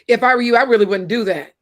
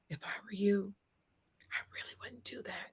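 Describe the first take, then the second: First: It is said in a harsh, confrontational tone. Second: It is said in a gentle, caring tone. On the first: The listener feels talked down to. "I don't like that tone you're using" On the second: The listener hears it as friendly advice. "Same words, different tone"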